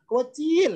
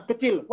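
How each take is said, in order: First: "kecil" drawn out and pitched high, as "kueciil"; stretched kecil. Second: Said in the usual way. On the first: Shown as a demonstration. Teacher showing students the emphatic, stretched "kecil". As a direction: lengthen the first syllable of "kecil" for emphasis. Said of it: "kecilnya dipanjangin namanya taukid". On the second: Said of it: "kecilnya dipanjangin".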